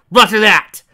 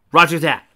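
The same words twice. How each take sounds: First: High, loud roger that; loud confirmation. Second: Punchy, louder roger; loud confirmation. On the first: Agent shouting back to her handler, high and loud. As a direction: shout the acknowledgment. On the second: Agent answering her handler, punchy and loud. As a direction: snap back the acknowledgment. Character confirming over comms. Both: Acted.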